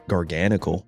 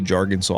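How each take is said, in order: First: The name is said the usual way. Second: The name is said in a personal, altered way.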